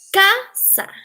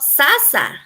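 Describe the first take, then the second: First: The word begins with a K sound. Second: The word begins with an S sound. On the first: The speaker calls it right. "It is casa" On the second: The speaker calls it wrong. "It is not sasa"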